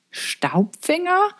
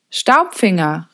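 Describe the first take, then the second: First: Very slow, high, rising question; puzzled echo. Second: Slow, drawn-out call at moderate volume. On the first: Girl puzzling over a strange name, puzzled echo. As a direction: wonder at a strange name, drawn out. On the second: Father to visitor out in the dark, calling out. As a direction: call a name into the dark, restrained. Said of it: "rief Mo in die Dunkelheit". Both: A narrator's reading.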